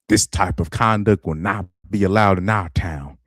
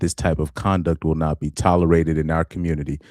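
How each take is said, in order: First: It is said in a put-on Southern accent. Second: It is read in a plain, unaccented voice.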